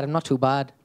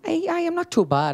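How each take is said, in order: First: Said in the usual way. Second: Put-on quick Irish accent, pitched up high. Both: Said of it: "Can you do an Irish accent".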